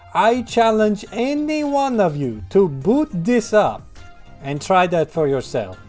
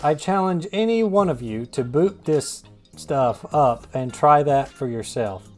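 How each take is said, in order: First: It is said imitating Main Man's voice. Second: It is said in his own normal voice.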